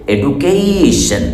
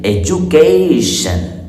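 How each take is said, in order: First: The middle consonant is a plain 'd' sound. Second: The middle consonant is a 'j' sound. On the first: The speaker calls it wrong. "एडू नहीं पढ़ना है" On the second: The speaker calls it right. "डी को जा बना देना है और कहना है एजुकेशन"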